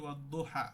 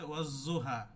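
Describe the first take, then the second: First: The doubled consonant is a d-like sound. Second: The doubled consonant is a z-like sound. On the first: This follows the Hafs reading. "আমি যদি হাফসের কেরাত পড়ি" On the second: This follows another recognized reading. "জ পড়ে, ঝা আর কি"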